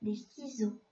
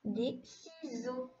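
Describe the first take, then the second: First: Des ciseaux with the S clearly voiced as Z; Z sound. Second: Des ciseaux said slowly, S sounding as Z; slow model reading. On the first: Teacher to pupil, Des ciseaux repeated at normal pace. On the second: Teacher to pupil, Des ciseaux read slowly with Z sound. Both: Shown as a demonstration. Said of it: "donc il fait le son Z".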